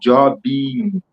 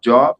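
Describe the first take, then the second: First: It is said with a Brazilian Portuguese accent. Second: It is said with an English accent.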